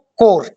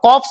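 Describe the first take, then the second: First: The word ends in r, without p or s. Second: The word ends with audible p and s sounds. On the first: The speaker calls it right. "इसको बोलना है आपको कोर" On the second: The speaker calls it wrong. "इसको कॉप्स मत बोलना"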